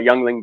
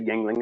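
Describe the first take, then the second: First: The first syllable sounds like 'young'. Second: The first syllable sounds like 'ying'. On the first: "I always call it young, Youngling because it just annoys my American friends" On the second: "I'll pronounce it properly and I'll say Yingling"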